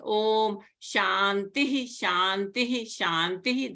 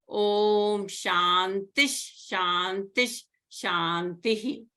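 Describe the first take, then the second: First: Each Shantih ends with a separate 'hi' sound. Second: The first two Shantih end in a linked 'sh' sound. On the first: "You can pronounce it as" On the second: "there is a sandhi going on here"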